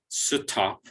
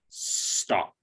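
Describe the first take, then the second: First: A vowel is inserted between the S and T. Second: The S and T are blended without vowels. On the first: The speaker calls it wrong. "there's no vowel sound between the S and the T, so it's not stop" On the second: The speaker calls it right. "it's just stop"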